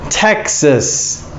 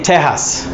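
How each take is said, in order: First: "Texas" with a clear k sound, tek-sus; correct Texas. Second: "Texas" said as "Tehas", Spanish h sound; wrong Texas. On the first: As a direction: say "Texas" with a crisp k. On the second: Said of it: "Texas, no". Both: Shown as a demonstration.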